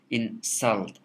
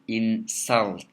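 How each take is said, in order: First: The stress is on the second syllable. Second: The stress is on the second syllable.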